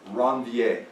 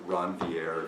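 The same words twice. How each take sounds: First: The name is pronounced with French sounds. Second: The name is pronounced with English sounds. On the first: "I'm going to pronounce it as though it were French" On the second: "if you want"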